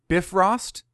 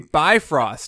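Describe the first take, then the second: First: The first part is not said like 'bi-'. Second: The first part is said like 'bi-'. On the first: The speaker calls it right. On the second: The speaker calls it wrong.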